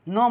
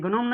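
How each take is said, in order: First: The word begins directly with the n sound. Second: A g sound is heard before the n. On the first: The speaker calls it right. "ये क्या होगा नोम हो जाएगा" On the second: The speaker calls it wrong. "ये गनोम नहीं होगा"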